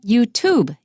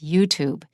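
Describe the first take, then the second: First: The stress falls heavily on the second syllable. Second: The stress falls on the first syllable. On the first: The speaker calls it wrong. "It's not YouTube" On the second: The speaker calls it right. "It's YouTube"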